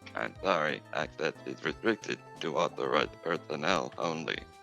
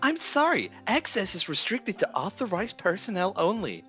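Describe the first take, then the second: First: It is a different put-on voice, not TikTok's. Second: It imitates the TikTok text-to-speech voice.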